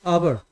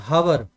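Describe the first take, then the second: First: "hour" with a silent h; correct pronunciation. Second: "hour" with the h wrongly sounded; mispronounced hour. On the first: Teacher correcting the student, "hour" with the h silent. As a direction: say "hour" starting on the vowel, like "our". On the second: Teacher mimicking the student's slip, "hour" with a sounded h. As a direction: say "hour" with a breathed h at the start. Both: Shown as a demonstration. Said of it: "It's not hour. It's hour".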